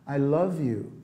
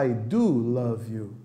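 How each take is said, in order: First: Said in the usual way. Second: I do love you with do drawn out slowly; stress on do. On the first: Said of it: "Sabe quando você fala pro seu namorado". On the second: Shown as a demonstration. Teacher showing the wrong do love you. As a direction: lean slowly on do. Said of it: "Você não fala".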